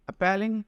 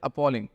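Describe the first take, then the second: First: The stressed vowel sounds like the 'a' in cat. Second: The stressed vowel sounds like the 'aw' in saw. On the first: The speaker calls it wrong. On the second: The speaker calls it right.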